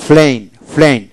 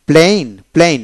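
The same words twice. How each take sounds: First: প্লেন with airy P, almost "flein"; British aspirated P. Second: প্লেন with unaspirated P; no puff on the P of প্লেন; hard P. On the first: Teacher shows British form to learners, aspirated P in প্লেন. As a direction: puff the P of প্লেন towards an F. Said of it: "ব্রিটিশে". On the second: Teacher reads the word for learners, প্লেন with hard P. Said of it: "আবার ব্রিটিশে". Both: Shown as a demonstration.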